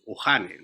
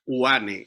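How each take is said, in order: First: The h sound is pronounced in the word. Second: The h sound is left silent in the word. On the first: The speaker calls it wrong. "we don't pronounce the H as hey or Uhane" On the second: The speaker calls it right. "No, this is Uane"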